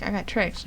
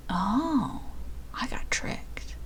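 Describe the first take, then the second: First: Said in the usual way. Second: Hushed, deflated whisper; dismayed whisper. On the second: Real, not acted. Streamer realizing she missed a quiz answer, dismayed whisper. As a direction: whisper it as if caught out.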